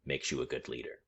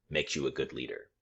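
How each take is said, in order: Both takes have the same delivery.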